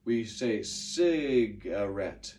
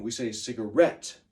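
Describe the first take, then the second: First: Cigarette with stress on the first syllable, said slowly; slow cigarette, stress at the start; usual cigarette. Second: Cigarette with stress on the last syllable ret; rhyming cigarette. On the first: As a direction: say cigarette the everyday way. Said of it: "usually when we say cigarette". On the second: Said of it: "to make it rhyme". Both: Shown as a demonstration.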